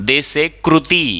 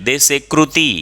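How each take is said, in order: The two takes are said the same way.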